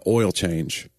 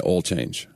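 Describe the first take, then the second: First: "oil change" with a full OY sound; standard pronunciation. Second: "oil change" as "ol change", Southern; Southern accent. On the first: Reading commercial copy, standard pronunciation. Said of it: "hard for me not to say". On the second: Confessing a slip in commercial copy, Southern accent. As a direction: flatten "oil change" to "awl change", Southern style. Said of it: "hard for me not to say oil change". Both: Shown as a demonstration.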